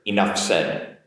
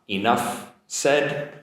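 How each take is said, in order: First: The words are said quickly, the F linking into S. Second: The words are said slowly and kept separate. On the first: "if I do it a little bit quicker" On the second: "if I do it, it doesn't really link"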